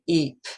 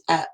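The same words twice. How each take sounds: First: "eep" with a drawn-out EE; "eep" as in leap, elongated vowel; long ee sound. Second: "ep" with a short clipped E; "ep" as in step, brief vowel; short e sound. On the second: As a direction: say "ep" quickly, the vowel cut short. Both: Shown as a demonstration. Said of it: "One's elongated and one's shortened".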